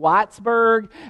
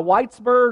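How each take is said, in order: First: It is said in a Kentucky accent. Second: It is said in a standard accent.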